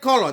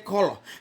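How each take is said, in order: First: It is said with a British accent. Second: It is said with an American accent. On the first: This is how the speaker's own group says it. "We say color" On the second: This is how the other group says it. "they say color"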